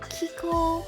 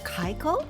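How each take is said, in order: First: The first syllable sounds like 'key'. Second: The first syllable sounds like 'kye'. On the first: "A lot of people get confused and say Kiko" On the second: "or Kaiko"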